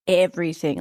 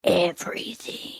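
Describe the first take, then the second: First: Said in the usual way. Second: Slow, voiceless whisper for emphasis; dramatic whisper. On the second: Real, not acted. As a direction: whisper it slowly, like a confession. Dramatic whispered confession, then repeated aloud.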